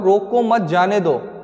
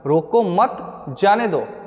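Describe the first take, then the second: First: There is no pause after 'मत'. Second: There is a pause after 'मत'.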